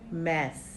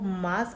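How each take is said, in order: First: The vowel is a front 'a' as in cat. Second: The vowel is a long open 'ah'. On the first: The speaker calls it right. "सही उच्चारण है मैस" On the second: The speaker calls it wrong. "मास कहा जाता है generally"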